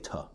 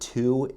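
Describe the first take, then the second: First: The word has a short, weak vowel. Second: The word has a full, clear vowel. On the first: "I'll say tuh" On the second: "The word to in a sentence"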